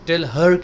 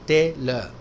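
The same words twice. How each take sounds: First: Both words are said separately and fully. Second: The two words run together as one word. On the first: The speaker calls it wrong. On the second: The speaker calls it right.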